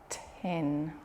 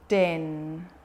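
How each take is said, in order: First: The first sound is a puffed, unvoiced t. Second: The first sound is a voiced d. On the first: The speaker calls it right. "Numbers are great for working on t" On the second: The speaker calls it wrong. "Listen to me voice that sound"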